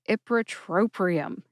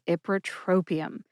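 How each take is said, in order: First: The word is said with an extra R sound. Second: The word is said without an extra R sound. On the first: The speaker calls it wrong. "I used to add an extra R to ipratropium" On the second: The speaker calls it right. "I do say it correctly today"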